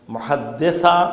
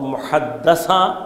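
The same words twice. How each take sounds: First: The vowel after the double d is 'i'. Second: The vowel after the double d is 'a'. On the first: She is the one who narrates. "زیر کے ساتھ" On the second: She is the one who is spoken to. "زبر کے ساتھ"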